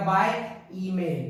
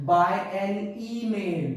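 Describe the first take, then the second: First: Said in the usual way. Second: Slow, drawn-out "by an email" as the wrong form; slow wrong example. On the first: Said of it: "मुझे बोलना पड़ेगा". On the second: Shown as a demonstration. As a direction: stretch out "by an email" slowly to show the mistake. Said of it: "मैं ऐसे नहीं बोल सकता". (धीमा, खींचकर "by an email" गलत उदाहरण की तरह)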